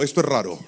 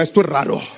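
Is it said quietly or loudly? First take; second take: quietly; loudly. First: It is said at a normal, quieter volume. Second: It is said loudly and forcefully.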